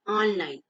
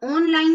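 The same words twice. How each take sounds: First: ऑनलाइन as "awn-line", pitched lower; ऑनलाइन with vowel between aa and o; correct open vowel. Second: ऑनलाइन as "ohn-line"; ऑनलाइन pitched higher, first vowel a closed o; wrong closed o. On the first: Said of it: "आ के ऊपर अर्धचंद्रा". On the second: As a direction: say ऑनलाइन with a long pure o. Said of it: "इसको हम ऑनलाइन नहीं पढ़ते". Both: Shown as a demonstration.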